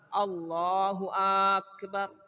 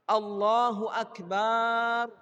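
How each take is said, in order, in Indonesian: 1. Vokal awal pada akbar dipanjangkan. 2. Vokal akhir pada akbar dipanjangkan. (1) "atau dia memanjangkan hamzah yang ada di akbar" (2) "atau dia panjangkan akbar"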